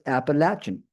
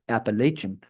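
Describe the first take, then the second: First: It uses the pronunciation common inside the region. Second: It uses the pronunciation common outside the region. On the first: This is how people from the region say it. "In the region, it tends to be pronounced" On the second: This is how people from elsewhere say it. "Outside the region, it tends to be pronounced"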